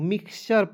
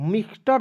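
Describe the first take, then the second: First: The middle consonant is a ch sound. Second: The middle consonant is a plain t sound. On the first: The speaker calls it right. "मिक्सचर पढ़ना है" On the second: The speaker calls it wrong. "मिक्सटर नहीं पढ़ लीजिएगा"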